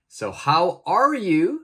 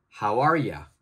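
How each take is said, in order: First: Are you is said as two full words. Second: Are you is merged into one short ya. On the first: "the are you, I'm going to change that" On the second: "that new word will become ya"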